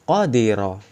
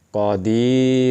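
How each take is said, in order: First: The 'di' vowel is kept short. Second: The 'di' vowel is held long. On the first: "Cara membacanya seperti itu" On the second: "Tapi ketika ada ya sukun, pasti dibaca panjang"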